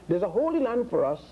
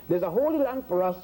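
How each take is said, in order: Both takes have the same delivery.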